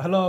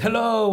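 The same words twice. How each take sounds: First: Said in the usual way. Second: Bright, high, loud greeting; cheery surgeon hello. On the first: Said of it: "And I was like". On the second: Retold or imitated. Surgeon greeting his waking patient, high and loud. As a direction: call out hello like a beaming surgeon. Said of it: "he just said".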